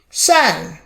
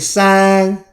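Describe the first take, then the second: First: The pitch falls sharply from high. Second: The pitch stays high and level.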